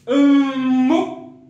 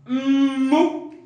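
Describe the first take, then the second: The two takes are said the same way.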